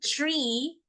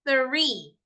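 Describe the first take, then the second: First: It begins with a plain t sound. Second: It begins with a soft th sound. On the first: The speaker calls it wrong. "Hindi tree" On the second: The speaker calls it right. "It's three"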